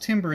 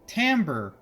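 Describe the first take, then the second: First: The first vowel sounds like 'i' in 'tim'. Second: The first vowel sounds like 'a' in 'tam'. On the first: The speaker calls it wrong. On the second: The speaker calls it right.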